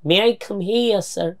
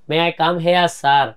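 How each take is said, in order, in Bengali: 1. 'here' শব্দের স্বরধ্বনিটি 'ear' এর মতো শোনায়। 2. 'here' শব্দের স্বরধ্বনিটি 'air' এর মতো শোনায়। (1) "এটাকে নেটিভরা বলছেন হিয়ার।" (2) "হেয়ার মানে তো খরগোশ।"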